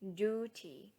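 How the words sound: It is said with an American accent. "American speakers say"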